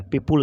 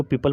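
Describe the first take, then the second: First: "पीपुल" said as pee-pool; oo sound in the ending of "पीपुल"; wrong "पीपुल" pronunciation. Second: "पीपल" said as pee-pəl; unrounded "pal" ending on "पीपल"; correct "पीपल" pronunciation. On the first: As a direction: say "पीपुल" with a rounded u in the second syllable. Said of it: "पीपुल नहीं पढ़ेंगे". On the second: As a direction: say "पीपल" with a schwa in the second syllable. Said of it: "इसको पीपल पढ़ेंगे". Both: Shown as a demonstration.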